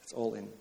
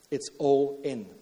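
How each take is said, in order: First: Much softer, dropped low; quiet echo. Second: Slow, weighty delivery; slow emphatic. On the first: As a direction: let it fall away quietly. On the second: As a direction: lean on each word, slowly. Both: Acted. Preacher repeats the key phrase.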